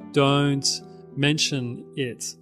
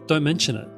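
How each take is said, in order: First: The words are separated with small breaks. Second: The words flow together without breaks. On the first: The speaker calls it wrong. "Some people say" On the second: The speaker calls it right. "it all just goes together"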